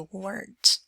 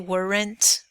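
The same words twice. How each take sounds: First: The word is said quickly as one syllable. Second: The word is drawn out into two syllables. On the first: The speaker calls it right. "one syllable, right? Very fast" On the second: The speaker calls it wrong. "We don't say weren't"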